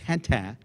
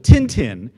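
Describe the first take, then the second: First: The name is said with a non-American pronunciation. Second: The name is said with an American pronunciation. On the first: The speaker calls it right. "you dumb Americans never say it right. It's Tintin" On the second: The speaker calls it wrong. "in the West, we called him Tintin"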